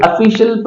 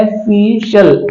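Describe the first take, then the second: First: Said in the usual way. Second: Slowed-down official, falling; slow clear model. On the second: Shown as a demonstration. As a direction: say official slowly as "uh-FISH-ul". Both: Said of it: "इसको पढ़ा जाता है official".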